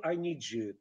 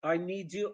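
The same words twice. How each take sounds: First: "I need you" said as "I nee-joo"; "I need you" lower, run together with a j; merged consonants. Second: Said in the usual way. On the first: Shown as a demonstration. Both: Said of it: "It becomes".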